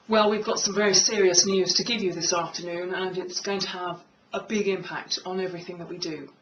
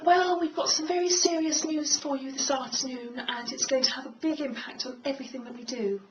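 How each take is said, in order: First: It is spoken at a low pitch. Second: It is spoken at a high pitch.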